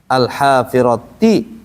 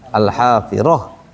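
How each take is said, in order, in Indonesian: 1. Kata itu berakhir dengan bunyi t dan vokal. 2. Kata itu berakhir dengan bunyi h saja.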